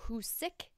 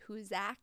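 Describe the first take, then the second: First: The last syllable sounds like the word sick. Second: The last syllable sounds like the end of Isaac. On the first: "like with the word sick at the end" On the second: "like Isaac"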